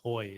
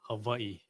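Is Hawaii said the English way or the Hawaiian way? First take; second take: English; Hawaiian. First: It is said the common English way. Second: It is said the native Hawaiian way. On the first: The speaker calls it wrong. "people are just gonna say Hawaii" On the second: The speaker calls it right. "take their time to say Hawaii"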